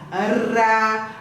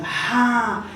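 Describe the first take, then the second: First: The r is a light flap of the tongue. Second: The r is a rough sound from the throat. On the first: "Esse R faz tremer a língua" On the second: "o som sai pela garganta. Treme a garganta"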